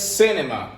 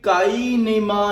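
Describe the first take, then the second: First: The word begins with an S sound. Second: The word begins with a K sound. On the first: The speaker calls it right. "बनेगा सिनेमा" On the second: The speaker calls it wrong. "ये काइनेमा नहीं बनेगा"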